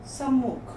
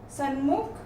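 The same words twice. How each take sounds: First: Said in the usual way. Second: सन्मुख with "n" before "m"; wrong consonant. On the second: Shown as a demonstration. Teacher reads the error list, wrong consonant "n" in सन्मुख. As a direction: say सन्मुख as "san-mukh". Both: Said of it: "व्यंजन संबंधी हैं".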